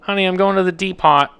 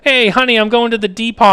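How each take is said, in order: First: Dad voice. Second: A higher, louder dad calling to mom. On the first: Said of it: "that's what he used to say to my mom". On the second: Dad calls out to mom that he's off to the Depot, in a higher, louder voice. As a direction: play the cheery dad announcing his errand. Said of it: "That's what my dad used to do". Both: Retold or imitated.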